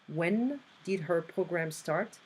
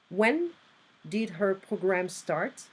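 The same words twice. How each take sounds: The two takes are said the same way.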